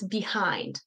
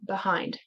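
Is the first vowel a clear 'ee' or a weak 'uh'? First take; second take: clear ee; weak uh. First: The first syllable has a clear 'ee' vowel. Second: The first syllable has a weak 'uh' vowel. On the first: "why do you hear it being pronounced as behind?" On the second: "some people pronounce it with the schwa sound"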